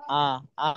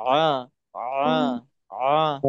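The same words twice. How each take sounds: First: আ as a bare open vowel with no throat squeeze; just say আ straight, the wrong way; plain open a. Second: আ pushed out with pressure from mid-throat; throat-pressed ain. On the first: Teacher showing students the wrong way, plain open vowel. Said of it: "সরাসরি যদি আ পড়ি". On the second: Teacher showing students the right way, throat-pressed ain. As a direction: squeeze the throat on আ like Arabic ain. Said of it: "গলার মাঝখানে চাপ দিয়ে বলতে হবে". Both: Shown as a demonstration.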